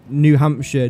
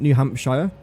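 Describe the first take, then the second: First: The last syllable is reduced to 'shuh'. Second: The last syllable is a full 'shire'. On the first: The speaker calls it right. "I'm pretty sure they pronounce it" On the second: The speaker calls it wrong.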